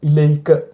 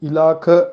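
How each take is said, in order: First: The middle vowel is an 'ay' glide. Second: The middle vowel is a long plain 'aa'. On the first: The speaker calls it right. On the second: The speaker calls it wrong. "இலாக்க என்று சொல்லாம"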